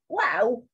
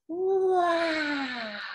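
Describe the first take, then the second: First: It is said short and quick. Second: It is said big and drawn out.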